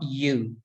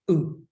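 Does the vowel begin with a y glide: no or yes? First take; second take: yes; no. First: The vowel begins with a y glide. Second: The vowel is plain with no glide. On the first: The speaker calls it wrong. "we say it with a Y almost" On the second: The speaker calls it right. "without the Y in the front of it"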